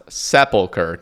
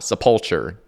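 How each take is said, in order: First: The word ends with a 'kur' sound. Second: The word ends with a 'chur' sound. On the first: The speaker calls it right. "it is pronounced Sepulchre" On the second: The speaker calls it wrong. "not Sepulture"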